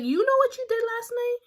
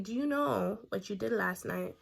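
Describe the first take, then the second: First: High, loud "you know what you did last night?"; loud high accusation. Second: Said in the usual way. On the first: Retold or imitated. Accusing the girl.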